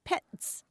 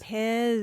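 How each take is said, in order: First: The word ends with a sharp 'ts' sound. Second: The word ends with a buzzing 'z' sound. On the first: This is the German way of saying it. "in German, that's pronounced Petz" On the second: This is the English way of saying it. "in English, we pronounce it"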